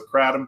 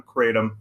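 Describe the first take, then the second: First: KRATOM with short A, KRAT-um; short-A pronunciation. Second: KRATOM with long A, KRAY-tum; long-A pronunciation. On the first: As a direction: say kratom with the A of cat. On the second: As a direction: say kratom with the A of day. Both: Shown as a demonstration. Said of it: "tomato, tomato".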